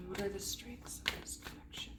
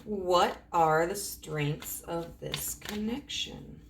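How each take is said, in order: First: Very soft, voiceless whisper; whispered question. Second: Slow, spaced-out question. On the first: Reader repeating the question about this connection, whispered. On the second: Reader asking about the connection's strengths, slow and deliberate. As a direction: draw the question out word by word. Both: Real, not acted.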